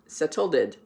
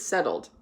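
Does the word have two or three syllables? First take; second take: three; two. First: The ending is said as an extra syllable. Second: The ending is said as a plain D sound. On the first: The speaker calls it wrong. "It doesn't have an ed. It's not settled" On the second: The speaker calls it right. "that ed sound is actually just a D sound"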